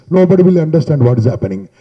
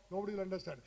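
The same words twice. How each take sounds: First: Booming, blown-out sound with the mic jammed at the mouth; mic held too close. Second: Much softer, thin and distant, with the mic away from the mouth; mic held too far. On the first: To students, showing bad mic handling with a booming mic. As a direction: let the mic overload right against the lips. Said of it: "Mic handling is some people keep like this". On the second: To students, showing a mic held too far away, faint. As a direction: let the voice fade off the mic. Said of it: "Some people keep like this and they will talk". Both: Shown as a demonstration.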